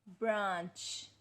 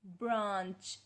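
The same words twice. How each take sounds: The two takes are said the same way.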